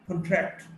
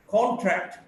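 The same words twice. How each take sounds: First: "contract" as con-TRACT; weak start, strong TRACT in "contract"; stress on second syllable. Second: "contract" as CON-tract; stress on first syllable. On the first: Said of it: "stressed in the second syllable". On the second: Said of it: "stressed in the first syllable". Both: Shown as a demonstration.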